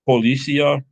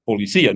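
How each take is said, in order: First: The stress is not on the 'i'. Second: The stress falls on the 'i'. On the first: The speaker calls it wrong. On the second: The speaker calls it right. "you still better say it right"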